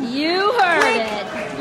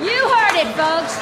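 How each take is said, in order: First: Said in the usual way. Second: Excited reporter. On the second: Acted. Reporter punches line.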